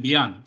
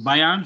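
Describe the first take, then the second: First: BAYAN said as "BEE-an", opening like "bee"; second pronunciation variant. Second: BAYAN said as "BY-an", opening like "buy"; first pronunciation variant. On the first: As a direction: say Bayan with an "ee" sound first. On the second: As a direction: say Bayan with an "eye" sound first. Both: Shown as a demonstration. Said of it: "some people pronounce it Bayan".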